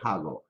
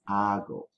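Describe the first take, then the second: First: The word begins with an audible h sound. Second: The word begins directly with the vowel sound. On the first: The speaker calls it wrong. "don't say hago" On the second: The speaker calls it right. "Remember the letter H is silent"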